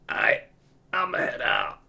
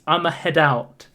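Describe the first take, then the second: First: It is said in a very tired voice. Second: It is said in a plain, normal voice.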